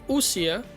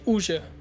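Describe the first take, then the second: First: The middle consonant is a plain s sound. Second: The middle consonant is a soft sh sound. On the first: It follows the written spelling. "I intentionally pronounced it this way because it, I want you to hear how it's written" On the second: It follows how the game itself says it. "they actually say Uja"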